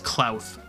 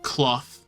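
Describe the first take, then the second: First: The vowel sounds like the one in cloud. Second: The vowel sounds like the one in cloth.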